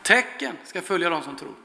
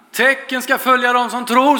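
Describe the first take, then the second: First: "Tecken ska följa dem som tror" much softer, falling to a hush; hushed, conclusive repeat; quiet restatement. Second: "Tecken ska följa dem som tror" lifted higher and ringing out, rise on "tror"; proclaimed scripture. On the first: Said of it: "Tecken, vilka tecken?". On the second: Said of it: "står det". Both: Shown as a demonstration.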